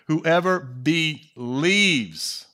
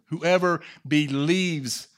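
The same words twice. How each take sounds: First: Whoever drawn out slow and leaned on hard; stress on whoever. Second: Whoever slowed and stressed, falling; emphasized Whoever with a falling tune; stress on whoever again. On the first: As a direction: dwell on Whoever, slow and heavy, then fall. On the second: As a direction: lean on Whoever, unhurried. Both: Shown as a demonstration. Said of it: "Remember I emphasized that word".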